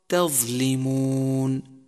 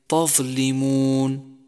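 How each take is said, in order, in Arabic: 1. الطاء تُنطق خفيفة، غير مفخمة. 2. الطاء تُنطق ثقيلة، مثل الطاء المفخمة. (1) "والصواب تظلمون" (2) "وكذلك تظلمون"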